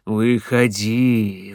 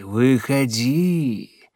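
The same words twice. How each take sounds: First: Slow, low, coaxing call; luring call. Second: Slow coaxing call, falling at the end; luring call. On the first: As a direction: draw the word out to lure her. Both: Acted. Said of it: "зазывал голос".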